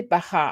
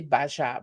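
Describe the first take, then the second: First: "baja" as ba-kha, j as a throaty h; Spanish pronunciation. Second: "baja" as ba-zha, j as a soft zh; French-style pronunciation. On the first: Showing viewers the right sound, Spanish pronunciation. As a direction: say "baja" with a raspy Spanish jota. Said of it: "I say baja". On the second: Showing viewers what was not said, French-style pronunciation. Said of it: "I didn't say baja". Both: Shown as a demonstration.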